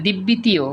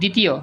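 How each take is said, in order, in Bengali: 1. প্রথম ব্যঞ্জনের পরে একটি b ধ্বনি হয়। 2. প্রথম ব্যঞ্জনের পরে কোনো b ধ্বনি হয় না। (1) "আমি কিন্তু বলি না দিব্যিতীয়" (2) "বলছি দ্বিতীয়"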